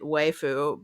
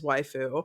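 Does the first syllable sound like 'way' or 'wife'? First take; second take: way; wife. First: The first syllable sounds like 'way'. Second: The first syllable sounds like 'wife'. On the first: It puns on the name Wake Forest. "I was intentionally pronouncing it waifu because it's not wife forest" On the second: This is the standard pronunciation. "I'm aware that it is waifu"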